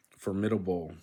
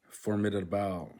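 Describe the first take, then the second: First: Said in the usual way. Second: "formidable" ending in a stressed "bal"; last-syllable stress. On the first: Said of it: "formidable in English". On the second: Shown as a demonstration. Learner working out the rule, stress on the end of "formidable". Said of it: "the stress is on the last syllable".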